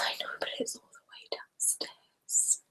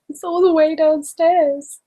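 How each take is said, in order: First: Very soft, voiceless complaint with a laugh; whispered laughing grumble; hushed whisper. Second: High, slow playful whine; drawn-out, hammed-up complaint; mock whine. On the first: Real, not acted. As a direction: protest under your breath, barely audible. Protesting the trip for wine. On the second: Repeats the protest out loud, playfully.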